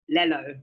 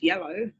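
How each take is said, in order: First: The word begins with an L sound. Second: The word begins with a Y sound. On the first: Some people, like young children, say it this way. The speaker calls it wrong. "people say yellow differently. Like Lello" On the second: This is the usual way to say it. The speaker calls it right. "It's yellow"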